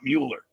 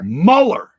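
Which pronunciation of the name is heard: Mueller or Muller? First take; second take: Mueller; Muller. First: The name is pronounced as Mueller. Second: The name is pronounced as Muller. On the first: The speaker calls it wrong. "not Mueller" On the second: The speaker calls it right. "Muller, not Mueller"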